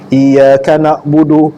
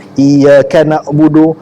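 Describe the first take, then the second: The two takes are said the same way.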